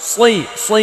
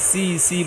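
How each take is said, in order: First: The consonant is heavy and thick. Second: The consonant is light and thin. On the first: The speaker calls it right. "এটা মোটা করতে হবে" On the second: The speaker calls it wrong. "সিনের মতো হয়ে গেল"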